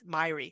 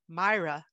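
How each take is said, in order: First: The name sounds like 'My-ree'. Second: The name sounds like 'My-ra'. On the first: This is how people in the US say it. "in the United States ... it's" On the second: This is how people in the UK say it. "In the United Kingdom, I've listened to people pronounce it"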